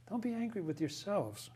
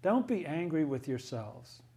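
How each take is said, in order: First: Much softer, tender echo of "Don't be angry with yourselves.". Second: Said in the usual way. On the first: Shown as a demonstration. Teacher repeats Joseph's words to the class, softly and tenderly. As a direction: let the words land gently, like a forgiving brother. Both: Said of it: "Do you hear the divine love in that?".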